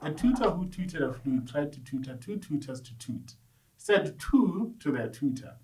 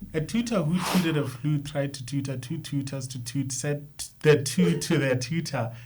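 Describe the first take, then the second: First: There is a clear pause after toot. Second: It runs on without a pause after toot.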